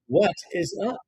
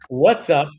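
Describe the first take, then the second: First: Both words 'what is' are said in full. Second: 'What is' is contracted into one syllable. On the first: It sounds formal. The speaker calls it wrong. "That's the formal way to say it" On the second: It sounds casual and everyday. The speaker calls it right. "We simply say"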